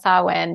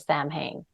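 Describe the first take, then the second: First: The name is said the traditional way. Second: The name is said as it is spelled. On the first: The speaker calls it right. "I would love to talk about Samhain" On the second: The speaker calls it wrong. "Like that's how I would pronounce it"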